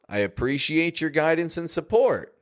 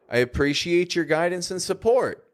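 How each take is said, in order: First: The word support carries the main emphasis. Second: The word support carries the main emphasis.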